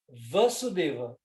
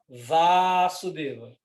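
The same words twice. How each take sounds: First: The first vowel is kept short. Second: The first vowel is held long. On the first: It names the father. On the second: It names the son. "longo, longo"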